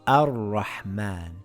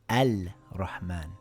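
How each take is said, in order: First: The l sound is dropped before the r. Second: The l sound is clearly pronounced before the r. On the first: The speaker calls it right. "it reads Ar-Rahman" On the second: The speaker calls it wrong. "and not Al-Rahman"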